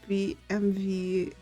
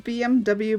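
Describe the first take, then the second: First: The last letter is said as 'vee'. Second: The last letter is said as 'double-u'. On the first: "I technically pronounce it as B M V" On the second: "It's a B M W"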